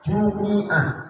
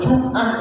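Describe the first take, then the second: First: The m is followed by an i vowel. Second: The m is followed directly by a consonant. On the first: The word names the day Friday. "membaca mimnya dari kasroh" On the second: The word means a whole week. "maka mimnya harus mati"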